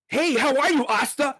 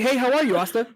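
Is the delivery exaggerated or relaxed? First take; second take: exaggerated; relaxed. First: It is said in an overdone, dramatic way. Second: It is said in a calm, easygoing way. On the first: The speaker calls it wrong. "a lot of the voice acting is so cringe" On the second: The speaker calls it right. "like super chill"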